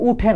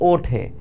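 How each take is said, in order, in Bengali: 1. শব্দটি 'u' স্বরধ্বনি দিয়ে শুরু। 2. শব্দটি 'o' স্বরধ্বনি দিয়ে শুরু। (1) "এটা কিন্তু উঠে না" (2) "উঠে উচ্চারণ হয় না, ওঠে"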